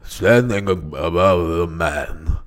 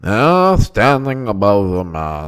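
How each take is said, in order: First: Slow, low statesman impression; Winston Churchill. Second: More nasal statesman impression, slow and low; Winston Churchill. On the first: Attempting an announced impression for his friend, low orator voice. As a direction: sink down into ponderous oratory. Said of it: "I'm gonna do Winston Churchill". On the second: Redoing the impression after his friend's note, nasal orator voice. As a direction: push it through the nose, ponderously. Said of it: "He had it more nasally". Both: Shown as a demonstration.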